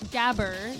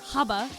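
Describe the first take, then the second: First: The word is said with an English pronunciation. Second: The word is said with a German pronunciation. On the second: "Haba is how you say it in German"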